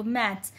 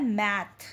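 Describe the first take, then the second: First: Said in the usual way. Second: "मैथ" with the final S dropped; American "मैथ", no S. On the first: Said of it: "इसको American English में बोला जाता है". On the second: Shown as a demonstration. Teacher showing students the American word, "मैथ" without the S. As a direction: say "मैथ" ending on the T, with no S after it. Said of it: "एस नहीं लगता है इसमें".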